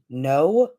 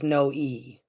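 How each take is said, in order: First: The name is said as one syllable. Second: The name ends in an added long E. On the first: "we would pronounce it in the Western as" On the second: "like elongated E is the prop is the proper way to pronounce it"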